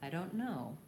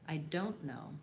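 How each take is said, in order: First: The stress falls on the word know. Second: The stress falls on the word don't. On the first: The speaker calls it right. "our typical stress would be to stress the word no" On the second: The speaker calls it wrong. "they stress the word don't"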